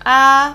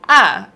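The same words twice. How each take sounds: First: It is said in Mandarin first tone. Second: It is said in fourth tone, going down. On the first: "which is first tone" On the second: "fourth tone, it goes down"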